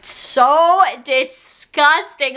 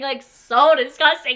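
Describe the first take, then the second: First: Drawn-out disgust. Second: Said in the usual way. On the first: Shown as a demonstration. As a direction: stretch out "so disgusting" slowly and heavily.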